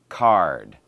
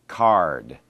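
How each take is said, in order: The two takes are said the same way.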